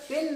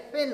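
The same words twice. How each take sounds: First: पेन with a plain P; पेन, hard प at the start; unaspirated P. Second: पेन as "phen"; पेन starting with फ; aspirated P. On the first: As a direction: say पेन with no breath on the P. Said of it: "पेन ना होता है". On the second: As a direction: say पेन with a puff of air on P. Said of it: "पी plus एच का होता है". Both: Shown as a demonstration.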